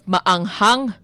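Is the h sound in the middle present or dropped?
present. The h sound in the middle is pronounced. "instead of maanghang"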